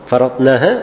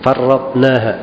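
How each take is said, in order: First: The r sound is short and single. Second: The r sound is held and doubled.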